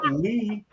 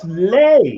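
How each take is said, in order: First: The vowel sounds like 'ee', as in 'see'. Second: The vowel sounds like 'ay', as in 'day'. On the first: This is how the name's owner says it. "not Lee" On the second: This is how German speakers read the spelling. "the pronunciation of L E E was Lay"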